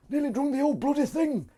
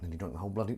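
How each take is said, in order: First: Very high-pitched put-on squeak; silly high voice. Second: Said in the usual way. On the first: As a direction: pipe it up comically high. Repeats line in silly high voice.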